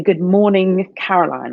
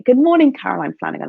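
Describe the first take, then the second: First: Said in the usual way. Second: Cheerful greeting. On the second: Shown as a demonstration. Greeting herself in the mirror, bright and excited. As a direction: greet yourself like you're delighted to see you. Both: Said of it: "I want you to say".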